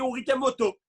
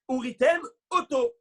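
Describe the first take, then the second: First: The two words run together without a break. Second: A short pause separates the two words. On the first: The words blur into a different word. The speaker calls it wrong. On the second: Each word stays distinct. The speaker calls it right.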